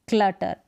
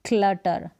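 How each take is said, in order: The two takes are said the same way.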